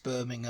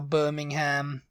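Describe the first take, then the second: First: It is said with a British pronunciation. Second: It is said with an American pronunciation. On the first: The speaker calls it right. "but everyone's like, no, it's Birmingham" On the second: The speaker calls it wrong. "You'd assume that's how Birmingham in the U K is said too"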